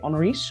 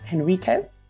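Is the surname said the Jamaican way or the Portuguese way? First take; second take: Portuguese; Jamaican. First: The name is said with a Portuguese pronunciation. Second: The name is said with a Jamaican pronunciation. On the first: "in Portugal... they pronounce it very differently" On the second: "in Jamaica, because we don't speak Portuguese, we pronounce it as"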